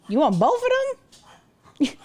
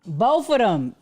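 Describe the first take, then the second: First: Slow, higher, incredulous question; mock disbelief. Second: Said in the usual way. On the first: Shown as a demonstration. Streamer to chat, slow high mock disbelief. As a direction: act stunned someone wants both.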